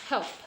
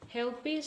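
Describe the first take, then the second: First: The word ends on the p with no vowel. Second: The word ends with an unstressed vowel after the p. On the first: "this will be pronounced as help only" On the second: "the loss of final unstressed vowel"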